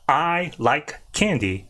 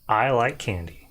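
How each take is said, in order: First: Each word is said separately with small pauses. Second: The words flow together without any pauses. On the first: The speaker calls it wrong. "you don't want to segment it ... it's not" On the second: The speaker calls it right. "You need to string it all together"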